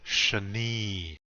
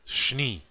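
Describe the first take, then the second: First: An 'a' vowel is heard between sh and n. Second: No vowel is heard between sh and n. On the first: The speaker calls it wrong. "don't be saying shani" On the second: The speaker calls it right. "Make that sh run into the n sound"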